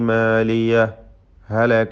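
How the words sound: A brief silent stop separates the two words. "ശബ്ദം മാത്രം മുറിച്ചുകൊണ്ട് ഇൽഹാർ ചെയ്തോതുക"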